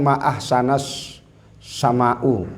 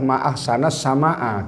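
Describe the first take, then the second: First: Ahsan- ends in a, sama'- ends in u. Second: Ahsan- ends in a, sama'- ends in a. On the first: The speaker calls it wrong. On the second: The speaker calls it right. "Yang betul adalah"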